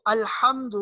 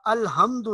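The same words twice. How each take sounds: First: الحمد with a pharyngeal ح; correct deep ha. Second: الحمد with a plain light h; wrong soft ha. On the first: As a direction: bring the h of الحمد from mid-throat. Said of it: "اس میں بھی ہا کو". (الحمد میں حلق والی حا) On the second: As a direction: soften ح in الحمد to ordinary h. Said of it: "الحمد نہیں پڑھنا". (الحمد میں ہلکی ہا) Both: Shown as a demonstration.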